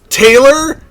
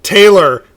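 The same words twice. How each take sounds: First: TAYLOR? high and loud, rising at the end; Taylor? pitched up, unsure it's them; questioning call. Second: TAYLOR with a falling, final tune; firm address. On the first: Player character confronts found friend. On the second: Same name repeated, now firm. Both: Acted.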